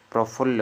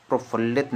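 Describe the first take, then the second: First: "प्रफुल्ल" ending on a double l; correct form demonstrated. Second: "प्रफुल्लित" with an added it ending; wrong form demonstrated. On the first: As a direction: stop "प्रफुल्ल" at phull, without it. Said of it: "प्रफुल्ल होता है". ("प्रफुल्ल" अंत में ल्ल) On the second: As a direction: end "प्रफुल्लित" on lit. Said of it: "प्रफुल्लित नहीं होता है". ("प्रफुल्लित" के अंत में इत) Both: Shown as a demonstration.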